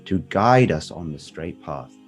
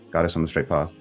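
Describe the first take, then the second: First: It is said slowly, with attention. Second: It is said quickly, rushed through.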